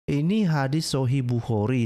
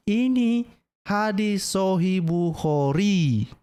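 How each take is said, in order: First: Said in the usual way. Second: Ini hadis Sahih Bukhari dragged out very slowly, each word weighted; slow emphatic. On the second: Real, not acted. Preacher insisting to Muslims the source is sound, slow and weighty.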